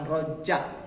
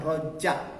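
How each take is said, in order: First: The middle consonant sounds like j. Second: The same.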